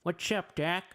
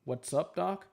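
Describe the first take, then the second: First: Higher retry of the cartoon rabbit's greeting; Bugs Bunny impression. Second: A light attempt at the cartoon rabbit's catchphrase; Bugs Bunny impression. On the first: Streamer retrying the rabbit's catchphrase, a bit higher. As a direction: pitch the catchphrase up for a second go. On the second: Streamer trying the rabbit's catchphrase for viewers, lightly voiced. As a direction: toss off the rabbit's greeting, barely changed. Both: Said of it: "That's my Bugs Bunny impression".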